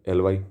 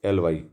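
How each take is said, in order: No difference in how they are said.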